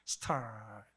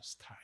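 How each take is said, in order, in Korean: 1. 이 단어는 영어처럼 혀를 꼬부린 r 소리로 끝나요. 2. 이 단어는 혀를 꼬부리지 않고 평범하게 끝나요.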